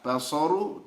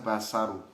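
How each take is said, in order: First: The s sound is heavy and emphatic. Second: The s sound is light and plain. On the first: The speaker calls it right. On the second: The speaker calls it wrong.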